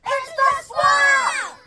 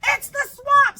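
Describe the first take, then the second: First: Very high, slow, loud shout; slowed storytime shout for the class to join. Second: High, loud mock panic; hammed-up scared shout; scared cry. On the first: Shown as a demonstration. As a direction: stretch out "It's the Swamp!" as a long yell. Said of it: "Say it with me". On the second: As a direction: shriek at the monster teacher. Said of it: "cried the kids".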